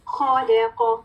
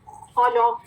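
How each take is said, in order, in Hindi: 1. बीच की 'ल' ध्वनि पतली और हल्की है। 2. बीच की 'ल' ध्वनि मोटी और भारी है। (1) "लाम बारीक लेटर है" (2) "लाम को मोटा नहीं करना। खौलो, लो खौलो नहीं करना"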